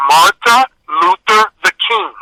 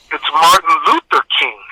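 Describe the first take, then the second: First: "Martha Luther the King", misreading Martin as Martha; misread name. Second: "Martin Luther King", the name said properly; correcting the name. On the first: Classmate reading aloud in class, misreading the name as "Martha Luther the King". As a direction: read "Martha Luther the King" slowly and higher, adding a "the". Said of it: "young lady proceeds to read". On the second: Sixth grader correcting a classmate's reading, "Martin Luther King" said properly. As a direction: say "Martin Luther King" evenly, with Martin in place of Martha. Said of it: "And I said, "No".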